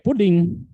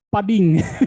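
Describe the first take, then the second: First: The first vowel is a rounded 'oo' sound. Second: The first vowel is an open 'uh' sound. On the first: The speaker calls it right. "Puding itu ya puding, di apa di pronounce itu puding" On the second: The speaker calls it wrong. "saya menjawabnya itu puding itu disebutnya pading"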